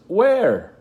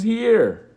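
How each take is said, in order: First: Much higher, louder call; mother calling where. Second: Much higher, louder call; boy calling here. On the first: Mother searching for invisible son, calling loudly. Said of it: "she says". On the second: Invisible boy answering his mother, calling loudly. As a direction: shout it back to her. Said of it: "And I says". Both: Retold or imitated.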